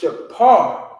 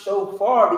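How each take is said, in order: First: The middle consonant is a p sound. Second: The middle consonant is an f sound. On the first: The speaker calls it right. "And that's pronounced shapar" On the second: The speaker calls it wrong. "They pronounce it shofar because they don't understand Hebrew"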